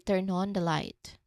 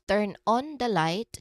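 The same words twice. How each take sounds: First: The N of turn links into on. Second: Each word is said separately without linking. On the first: The speaker calls it right. "we say turn on the light" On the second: The speaker calls it wrong. "Instead of turn on the light"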